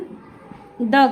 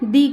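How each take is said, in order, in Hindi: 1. शब्द एक छोटे 'uh' स्वर पर खत्म होता है। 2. शब्द एक लंबे 'ee' स्वर पर खत्म होता है। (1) "अगर कॉन्सोनेंट हुआ तो इसका उच्चारण द करेंगे" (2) "अगर यहाँ वॉवल हुआ तो हम इसका उच्चारण दी करेंगे"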